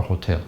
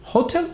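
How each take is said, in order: First: "hotel" stressed as ho-TEL; correct HOTEL. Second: "Hotel" stressed as HO-tel; wrong HOTEL. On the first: Teacher quizzing class on what they heard, correct HOTEL. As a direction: offer "hotel" with end stress. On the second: Teacher quizzing class on what they heard, wrong HOTEL. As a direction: offer "Hotel" with front stress. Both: Shown as a demonstration. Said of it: "what did they say?".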